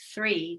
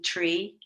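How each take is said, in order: First: The word begins with a th sound. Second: The word begins with a plain t sound.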